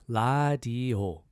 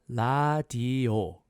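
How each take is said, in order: The two takes are said the same way.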